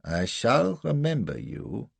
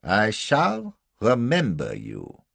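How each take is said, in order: First: Slow, raised-pitch threat; menacing German officer. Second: Very slow, raised, drawn-out threat; repeated menacing threat. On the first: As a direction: threaten him with deliberate slowness. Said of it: "He had murder on his face". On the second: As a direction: stretch out each word as a threat. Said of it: "he said a second time". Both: A narrator's reading.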